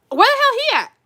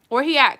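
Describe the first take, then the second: First: Much higher, louder excited call; excited yell. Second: Said in the usual way. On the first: Real, not acted. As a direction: call out eagerly, wanting him. Excited about the good guy.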